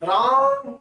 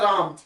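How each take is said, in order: First: The vowel is stretched out long, like a call. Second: The vowel is said at normal length. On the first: Someone is calling out to the person. "राम जो खिंचा, ये खिंचाव जो है ये प्लुत स्वर होता है" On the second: It is an ordinary mention of the name. "एक तो होता है राम"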